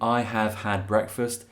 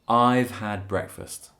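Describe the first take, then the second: First: Have is said as a separate full word. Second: Have is squeezed onto I as 've. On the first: "instead of saying" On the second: "it's more common to say I've had"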